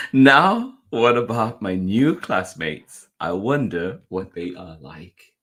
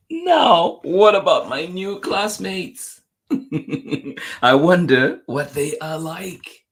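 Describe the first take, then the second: First: Slow storybook question after a loud "Now"; gentler wondering. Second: High, loud, drawn-out storybook question; excited wondering. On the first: Reader repeating the classmates question to children, musing wonder. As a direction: open loudly, then settle lower and slower. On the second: Reader voicing a child before meeting classmates, excited wondering. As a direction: launch in high and loud, stretching each phrase. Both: A narrator's reading.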